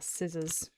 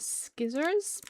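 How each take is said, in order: First: The word begins with a plain 's' sound. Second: The word begins with an 'sk' sound. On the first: The speaker calls it right. "They are scissors" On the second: The speaker calls it wrong. "that's not how you say it"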